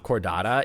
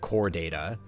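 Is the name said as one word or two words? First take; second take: one word; two words. First: It is said as one word, Chordata. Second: It is said as two words, core data. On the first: The speaker calls it wrong. "you have to pronounce it not Chordata" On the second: The speaker calls it right. "You have to pronounce it core data"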